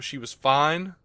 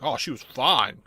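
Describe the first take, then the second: First: It is said in a plain, neutral way. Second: It is said in a leering, creepy way.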